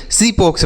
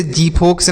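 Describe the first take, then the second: First: सीफोक्स with an s at the start; correct s sound. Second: जीफोक्स with a j at the start; wrong j sound. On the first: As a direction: say सीफोक्स as "see-foks". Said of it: "जीफोक्स नहीं सीफोक्स पढ़ा जाएगा". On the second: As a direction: say जीफोक्स as "jee-foks", the rejected reading. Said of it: "इसे जीफोक्स नहीं सीफोक्स पढ़ा जाएगा". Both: Shown as a demonstration.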